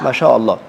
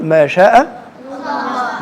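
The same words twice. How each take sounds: First: Said in the usual way. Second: ما شاء الله stretched slowly, high on شاء; drawn-out blessing. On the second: Shown as a demonstration. Teacher showing kids the right phrase, drawn out and high. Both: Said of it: "لا، تقول".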